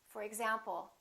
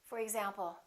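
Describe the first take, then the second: Both takes have the same delivery.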